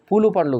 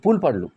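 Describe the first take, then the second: First: It is said the way Andhra actors said it. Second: It is said the Telangana way. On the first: The speaker calls it wrong. "పూలు పండ్లు కాదు" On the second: The speaker calls it right. "మన తెలంగాణ సాంప్రదాయంలో పూల్ పండ్లు అంటాం"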